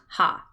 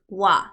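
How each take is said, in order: First: It begins with an h sound. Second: It begins with a w sound. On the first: It is read as the plain character. The speaker calls it wrong. "not ha" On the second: It is used as a particle. The speaker calls it right. "It's wa"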